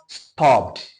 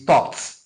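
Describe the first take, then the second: First: The ending is said as an extra syllable. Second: The ending is said as a T sound. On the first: The speaker calls it wrong. "It is not" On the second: The speaker calls it right. "we must pronounce it as T"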